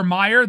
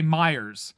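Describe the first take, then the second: First: Said in the usual way. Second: "Myers" drawn out with a final z sound; slow "Myers" ending in an extra buzzed s; added S. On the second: Shown as a demonstration. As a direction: say "Myers", adding the Ohioan s to the store name. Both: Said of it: "like adding S's to things".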